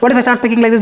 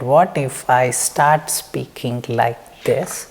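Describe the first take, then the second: First: The sentence is spoken quickly. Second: The sentence is spoken very slowly.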